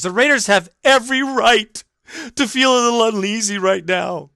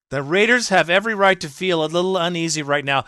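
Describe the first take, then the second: First: Higher, mock-prissy quote voice; mocking reading. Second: Said in the usual way. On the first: Host mocking a columnist's line, snide. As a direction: parrot her words snidely.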